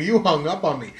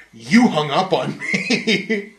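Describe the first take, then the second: First: Said in the usual way. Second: Slow, drawn-out mocking whine with a laugh; mock accusing customer. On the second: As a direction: stretch out each word like the annoying caller.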